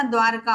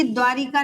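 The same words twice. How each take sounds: First: द्वारका with no इ, dvar-ka in two beats; द्वारका with a falling close; correct form. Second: द्वारिका with a clear इ after व, dva-ri-ka; द्वारिका spoken with the extra ri sound; wrong spelling said. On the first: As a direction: say द्वारका crisply as the right form. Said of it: "द्वारका होता है". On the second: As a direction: say द्वारिका as four syllables, the wrong form. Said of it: "द्वारिका नहीं होता". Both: Shown as a demonstration.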